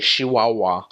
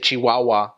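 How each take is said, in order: First: It starts with an sh sound, Northern Mexican. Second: It starts with a ch sound.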